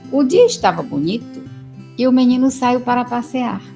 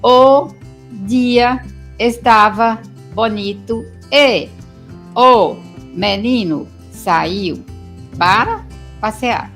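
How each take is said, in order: First: Pauses come only between the phrase groups. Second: There is a pause after every single word. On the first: The reader is at the highest reading level. "lê fazendo as pausas pelos sintagmas" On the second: The reader is at an intermediate reading level. "palavra por palavra, como se após cada palavra tivesse um ponto"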